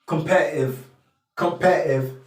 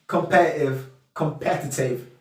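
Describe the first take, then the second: No difference in how they are said.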